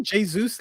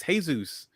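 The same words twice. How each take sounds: First: "Jesus" mockingly said as JAY-zoos; mimicked Jay-zoos pronunciation. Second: "Jesus" corrected to hay-ZOOS; Spanish-style pronunciation. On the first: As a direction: copy his "Jesus" with a J and long ay. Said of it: "Why are you saying Jesus like that?". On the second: Shown as a demonstration. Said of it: "It's Jesus".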